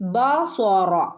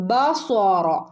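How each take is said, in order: No difference in how they are said.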